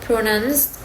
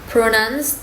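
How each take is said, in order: The two takes are said the same way.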